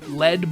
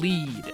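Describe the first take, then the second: First: Lead is pronounced like the heavy metal. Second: Lead is pronounced like the verb for guiding. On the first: The bubble is heavy and powerful. "as in like a really heavy, powerful bubble" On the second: The bubble travels along the ground. "as in traveling, like leading a horse to water"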